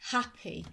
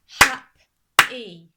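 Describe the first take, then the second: First: Said in the usual way. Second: "hap-e" as two separate loud beats; split into syllables. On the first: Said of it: "the beats in a word". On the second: Shown as a demonstration. Teacher showing children the beats in a word, syllable by syllable. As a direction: break "hap-e" in two with a pause. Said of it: "going to show you now".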